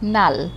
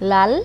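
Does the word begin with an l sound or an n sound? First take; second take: n; l. First: The word begins with an n sound. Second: The word begins with an l sound. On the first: "সেখান থেকে নাল হয়ে গেল" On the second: "দুইটাই ল"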